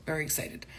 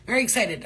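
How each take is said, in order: First: Said in the usual way. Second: Very excited said louder and higher. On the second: Shown as a demonstration. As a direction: pump it up on Very.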